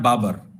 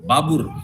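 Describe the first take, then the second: First: The second vowel is an 'a' sound. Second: The second vowel is a 'u' sound. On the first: This is the form used locally. "हम लोग बोलते हैं बाबर" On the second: This is the form used in Uzbekistan. "Uzbek लोग जो हैं वो बाबर का pronunciation करते हैं बाबुर"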